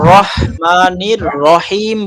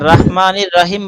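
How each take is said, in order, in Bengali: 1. 'ra' অংশগুলোতে একটু গোলাকার, হালকা স্বর আছে। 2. 'ra' অংশগুলোতে খোলা 'ah' স্বর আছে। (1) "বলতে হবে।" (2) "বলা যাবে না।"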